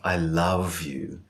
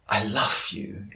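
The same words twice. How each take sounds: First: Love ends in a strong voiced V sound. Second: Love ends in a breathy unvoiced F sound. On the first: The speaker calls it right. "the V remains strong and present and full-bodied" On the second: The speaker calls it wrong. "that F in love is just a puff of air"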